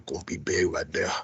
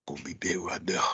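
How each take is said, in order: First: A low, whispered Southern twang; mock Southern accent. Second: Mock Southern accent. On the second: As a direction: say it again in a whispered Southern twang. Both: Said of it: "it's my Southern accent".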